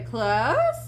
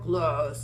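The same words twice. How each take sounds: First: The word is said in a high pitch. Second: The word is said in a low pitch. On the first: "in an upper pitched voice" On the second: "in a lower pitched voice"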